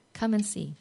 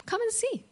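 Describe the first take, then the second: First: Said in the usual way. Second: Soft invitation. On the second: Acted. Repeated invitation, high soft.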